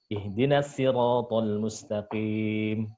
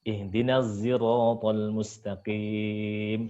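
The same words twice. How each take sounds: First: The s in sirat is a plain light s. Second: The s in sirat is blended toward a z. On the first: This is the reading of a second traditional reciter. "pakai sin" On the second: This is the reading of a third traditional reciter. "Terus hamzah"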